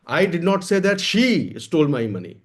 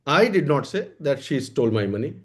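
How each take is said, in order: First: The word "she" carries the main stress. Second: The word "I" carries the main stress. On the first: Money was stolen, but not by her. "पैसा चोरी हुआ है लेकिन मैंने ये नहीं कहा कि उसने चुराया है।" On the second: Someone else said it, not me. "इसका क्या मतलब हुआ? कि हमने नहीं कहा है।"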